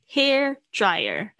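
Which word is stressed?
hair. The stress falls on the word hair. The speaker calls it right. "重点是头发hair dryer"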